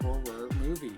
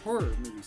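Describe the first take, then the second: First: It is said slowly and clearly. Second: It is said quickly and runs together.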